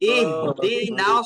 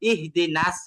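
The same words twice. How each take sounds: First: The s is heavy, said with rounded lips. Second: The s is light, said with unrounded lips. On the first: The speaker calls it right. "সদটাকে সামান্য গোল করতে হবে। ইহদিনাস এইভাবে" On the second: The speaker calls it wrong. "মুখ যদি আপনার সামান্য গোল না হয় তখন এটা সিনের দিকে চলে যাবে"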